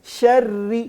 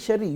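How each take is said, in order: First: The word is said slowly and deliberately. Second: The word is said quickly and rushed. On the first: The speaker calls it right. "इसको थोड़ा ठहराव से पढ़ा जाए" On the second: The speaker calls it wrong. "यूं नहीं, दौड़ नहीं लगानी"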